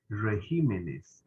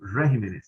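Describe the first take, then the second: First: The stress falls on the second syllable, 'gi'. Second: The stress falls somewhere other than the second syllable. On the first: The speaker calls it right. "se dice regímenes" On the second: The speaker calls it wrong. "el presidente diciendo regímenes"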